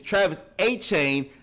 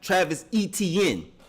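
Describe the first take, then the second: First: The surname begins with an 'ay' sound. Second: The surname begins with an 'eh' sound. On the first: The speaker calls it right. "It's Travis Achane, it really sounds more like Devin Achane" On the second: The speaker calls it wrong. "not Travis Etienne"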